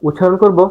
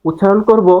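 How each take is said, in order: No difference in how they are said.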